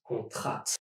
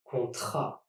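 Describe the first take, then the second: First: Contrat with the last T pronounced; sounded final T. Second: Contrat ending on an open A; silent final T. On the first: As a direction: wrongly sound the T ending contrat. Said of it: "and not contrat". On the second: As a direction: leave the last T off contrat. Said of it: "The T here is silent". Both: Shown as a demonstration.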